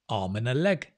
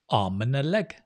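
No difference in how they are said.

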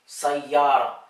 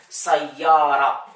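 No difference in how they are said.

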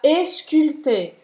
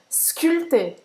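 First: A vowel sound is added before the initial s. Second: The word starts directly with the s sound. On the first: The speaker calls it wrong. "Não é para falar esculpté" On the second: The speaker calls it right. "a palavra vai começar com o S mesmo"

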